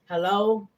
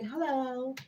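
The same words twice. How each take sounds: First: It is said in a plain, ordinary voice. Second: It is said in a put-on posh voice.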